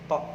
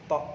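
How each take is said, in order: The two takes are said the same way.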